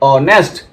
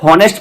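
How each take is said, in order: First: The word starts directly with a vowel. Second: The word starts with an h sound. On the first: The speaker calls it right. "H को नहीं पढ़ते हैं" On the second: The speaker calls it wrong. "बहुत से बच्चे जो है गलतियां कर जाते हैं, इसे हॉनेस्ट पढ़ देते हैं"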